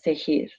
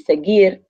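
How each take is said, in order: First: The g is a raspy h sound. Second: The g is a hard g sound. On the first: The speaker calls it wrong. "and not seguir" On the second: The speaker calls it right. "to give it its hard G sound. They want the verb to be seguir"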